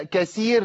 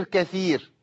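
First: كثير pronounced kaseer, with s; s for thaa. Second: كثير pronounced katheer, th as in think; correct thaa. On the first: Teacher shows the substitution error, kaseer for كثير. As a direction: swap th for s in كثير. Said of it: "لو أبدلت الثاء بسين". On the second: Teacher contrasts the correct word, katheer with th in كثير. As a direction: put a clear th in كثير. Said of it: "الفرق بين الثاء". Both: Shown as a demonstration.

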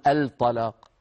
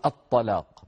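First: "الطلاق" as al-talaq, L fully sounded; unassimilated lam. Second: "الطلاق" as at-talaq, lam silent, heavy T doubled; assimilated lam. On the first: Teacher showing students what not to say, "الطلاق" pronounced al-talaq. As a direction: say "الطلاق" wrongly with a clear L before the T. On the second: Teacher showing students the sun-letter rule, "الطلاق" pronounced at-talaq. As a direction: say "الطلاق" with the L merged into a doubled emphatic T. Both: Shown as a demonstration. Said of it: "ما نقول".

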